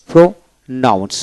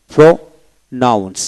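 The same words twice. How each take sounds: The two takes are said the same way.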